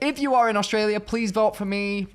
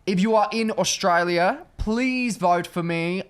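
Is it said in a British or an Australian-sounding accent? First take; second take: British; Australian. First: It is said in her own British accent. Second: It is said in a put-on Australian accent.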